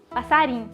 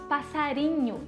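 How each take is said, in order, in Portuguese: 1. A sílaba final é engolida e cortada. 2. A palavra termina com a sílaba final plena. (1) "e sim passarim" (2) "nós não falamos passarinho"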